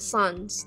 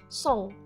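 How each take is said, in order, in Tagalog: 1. Ang salita ay may malinaw na tunog na s sa dulo. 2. Ang salita ay nagtatapos sa nasal na patinig, walang s. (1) "hindi mo sasabihin na sons" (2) "hindi mo pinupronounce yung S"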